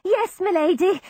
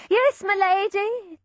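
First: High, eager servant's reply; a nervous servant's yes. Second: High, slow obedient repeat; slow fading yes; servant. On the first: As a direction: answer the lady obediently. Servant answering hurriedly. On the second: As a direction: drag out the reply as he goes. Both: A narrator's reading.

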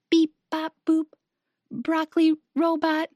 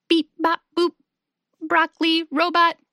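First: Restrained monotone robot; quiet robot voice. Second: Monotone robot, punched word by word; silly robot voice. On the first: Milo trying out the game, quiet robot voice. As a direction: play the robot gently, one level note. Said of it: "in a quiet robot voice". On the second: Hugo playing broccoli robot to amuse his friends, silly robot voice. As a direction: play a silly robot, beeping on one note. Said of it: "Hugo makes a silly robot voice". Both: A narrator's reading.

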